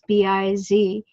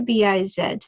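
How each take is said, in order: First: The last letter is said 'zee', American style. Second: The last letter is said 'zed', British/Canadian style.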